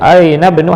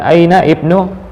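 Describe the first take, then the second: First: The 'i' is dropped and the words run together. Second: The 'i' is pronounced as a separate syllable. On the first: The speaker calls it right. "tapi langsung aina bnu Hamid" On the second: The speaker calls it wrong. "bukan aina ibnu"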